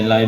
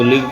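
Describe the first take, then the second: First: "لائیو" with an eye vowel; long-i pronunciation. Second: "لیو" said with a short i; short-i pronunciation. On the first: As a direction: make "لائیو" rhyme with five. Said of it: "لائیو بھی بولیں". ("لائیو"، آئی کی آواز کے ساتھ) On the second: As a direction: make "لیو" rhyme with give. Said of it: "آپ اس کو لیو بھی بولیں". ("لیو"، چھوٹی اِ کے ساتھ) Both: Shown as a demonstration.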